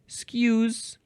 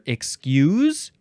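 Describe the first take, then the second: First: The word is said without its first syllable. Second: The word is said with its first syllable. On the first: "There's no first syllable" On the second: "It's either excuse"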